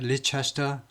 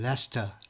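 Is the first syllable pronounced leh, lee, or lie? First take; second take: lee; leh. First: The first syllable sounds like lee, four syllables. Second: The first syllable sounds like leh, two syllables. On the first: The speaker calls it wrong. "리도 아니고" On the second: The speaker calls it right. "레스터라고 발음합니다"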